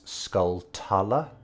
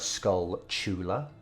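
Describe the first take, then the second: First: The second part starts with a 't' sound. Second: The second part starts with a 'ch' sound. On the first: The speaker calls it wrong. "for everyone who says skull-tula, you're very wrong" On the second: The speaker calls it right. "It's uh, skull-chula, uh, like tarantula"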